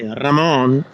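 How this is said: It is said with a Spanish pronunciation.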